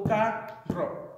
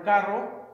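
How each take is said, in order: First: "carro" split into two syllables, pitched up; higher, divided "carro" for a class. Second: Said in the usual way. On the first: Shown as a demonstration. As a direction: sound out "carro" in two separate parts. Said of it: "one syllable". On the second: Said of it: "you hear that the emphasis is more so on the second to last syllable".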